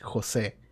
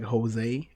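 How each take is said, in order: First: The name is said without an English accent. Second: The name is said with an English accent. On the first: The speaker calls it right. "It's Jose" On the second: The speaker calls it wrong. "they say it with like an English accent"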